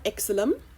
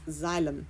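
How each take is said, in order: First: The word begins with an eks sound. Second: The word begins with a z sound. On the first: The speaker calls it wrong. "Notice it's not exilum" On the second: The speaker calls it right. "It is xylem, like xylophone"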